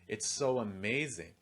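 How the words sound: The stress falls on the word amazing. "If I stress amazing, it's going to sound like this"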